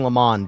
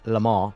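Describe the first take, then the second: First: The final N is clearly sounded, American style. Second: The final N is silent, French style. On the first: "the more American way of saying it" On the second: "the right way to say it's"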